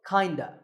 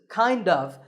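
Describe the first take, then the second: First: The words blend together into one reduced form. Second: Each word is said clearly and in full. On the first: "number four, kinda" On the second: "This is kind of"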